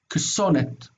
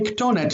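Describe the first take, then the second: First: The consonant before -onet is an s sound. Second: The consonant before -onet is a t sound. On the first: The speaker calls it wrong. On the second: This is the form actually used. The speaker calls it right. "they preferred to say ktonet"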